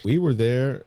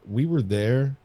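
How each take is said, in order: Both takes have the same delivery.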